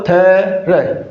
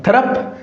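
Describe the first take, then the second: First: थ्र drawn out very slowly with no final p; teacher models थ्र slowly, no trailing sound; correct pronunciation. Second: थ्रप said as a questioning guess, rising high at the end; teacher floats थ्रप as the wrong way, rising; wrong pronunciation. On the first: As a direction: stretch थ्र long and slow, stopping clean after r. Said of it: "ये correct pronunciation है इसका". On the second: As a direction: offer थ्रप as the mistaken reading, a rising query. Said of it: "इसका उच्चारण थ्रप नहीं होगा". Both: Shown as a demonstration.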